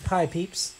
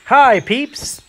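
First: Soft greeting. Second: Loud and high hello to the crowd; loud greeting call. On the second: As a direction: call out so the other players notice. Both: Real, not acted. Greeting players, tries again.

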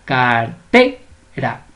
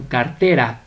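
First: "Cartera" very slow in separate syllables, TE punched; stress on TE. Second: Said in the usual way. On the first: Shown as a demonstration. Teacher showing how simple it is, "Cartera" stressed on TE. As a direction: stretch "Cartera" and hit the TE. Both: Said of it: "la mayor fuerza de voz".

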